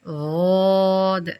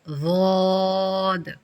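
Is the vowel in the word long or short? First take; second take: long; long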